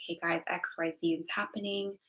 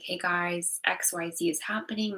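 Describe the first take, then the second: First: Whispered retelling of telling friends; whispered version of the same line to friends. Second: Said in the usual way. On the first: Retold or imitated. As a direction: hush it as if confiding a secret. Repeats the same words whispered.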